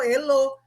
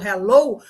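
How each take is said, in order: First: The word starts straight on the vowel, without h. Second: The word starts with a breathy h sound. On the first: It is read by Portuguese spelling rules. The speaker calls it wrong. "ela vai ler como elo, porque H E em português é E" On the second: It is said the way English speakers say it. The speaker calls it right. "me ouviu falando hello"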